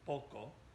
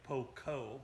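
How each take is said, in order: First: The word is said short and clipped. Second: The word is said long and drawn out. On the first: The speaker calls it right. "but shorten it" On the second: The speaker calls it wrong. "make sure we don't say poco"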